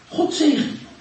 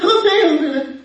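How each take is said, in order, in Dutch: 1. Het wordt langzaam en met ernst uitgesproken. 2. Het wordt snel en onzorgvuldig afgeraffeld. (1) "Op een manier waarbij je het echt meent" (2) "Dat kan je niet zomaar even snel doen"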